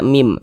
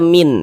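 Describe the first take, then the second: First: The syllable ends with an m sound. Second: The syllable ends with an n sound. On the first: The speaker calls it right. "tapi dibaca mim" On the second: The speaker calls it wrong. "jangan dibaca min"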